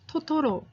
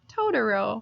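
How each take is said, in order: First: It is said with a Korean pronunciation. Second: It is said with an American pronunciation.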